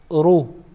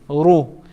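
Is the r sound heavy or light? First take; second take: heavy; heavy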